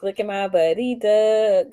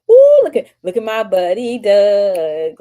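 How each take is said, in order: First: Said in the usual way. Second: Light up reading a friend's name; thrilled shout-out to a friend; excited. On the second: Real, not acted. Excited at a chat comment.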